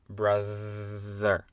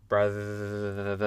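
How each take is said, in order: No difference in how they are said.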